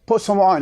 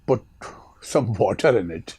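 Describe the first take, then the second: First: The T sounds are dropped and run together. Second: The T sounds are clearly pronounced.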